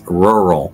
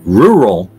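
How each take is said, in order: First: The first syllable sounds like 'rur'. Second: The first syllable sounds like 'roo'. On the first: The speaker calls it right. "the correct way is rural" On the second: The speaker calls it wrong. "The incorrect way is rural"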